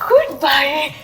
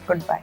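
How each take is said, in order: First: It is said in a happy way. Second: It is said in an angry way.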